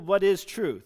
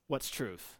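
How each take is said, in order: First: The question sounds sincere and genuinely curious. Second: The question sounds sarcastic and dismissive. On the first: The speaker honestly wants an answer. "Is he actually asking Jesus" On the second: The speaker does not expect or want an answer. "Or is he saying"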